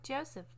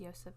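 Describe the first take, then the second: First: The name starts with a J sound. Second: The name is said without a J sound. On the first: "It's like Joseph" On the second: "but without the J"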